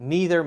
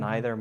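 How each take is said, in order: First: It is said the American way. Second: It is said the British way. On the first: "Neither maybe more American sounding" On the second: "Neither more more Brit"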